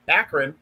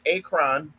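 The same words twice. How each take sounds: First: Akron said quickly as ACK-run; local pronunciation. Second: Akron said slowly as AY-kron, full second vowel; careful pronunciation. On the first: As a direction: say Akron as ACK-r'n, second vowel reduced. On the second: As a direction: say Akron as AY-krahn, drawn out. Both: Shown as a demonstration. Place name said two ways.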